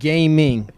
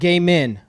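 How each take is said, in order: First: The word is said carefully, with clear enunciation. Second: The word is said loosely, without careful enunciation. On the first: The speaker calls it right. "but gaming. Got to make sure you're enu- you enunciate" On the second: The speaker calls it wrong. "not game in"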